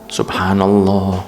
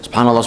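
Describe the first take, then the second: First: It is said slowly and drawn out. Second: It is said quickly and rushed.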